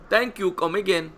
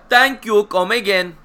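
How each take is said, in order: First: Lightly voiced shopkeeper catchphrase; a hint of a shop-counter voice; mock shopkeeper voice. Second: Higher, louder shopkeeper imitation; hammed-up Apu-style thanks; echoing the catchphrase in a put-on shop voice; mock shopkeeper voice. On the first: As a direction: repeat the line as a put-on cashier. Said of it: "he liked that one". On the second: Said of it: "What did I say last night".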